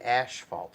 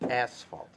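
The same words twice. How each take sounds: First: The first syllable sounds like 'ash'. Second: The first syllable sounds like 'ass'. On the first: The speaker calls it wrong. "don't say asphalt. I hate that" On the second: The speaker calls it right. "It's asphalt"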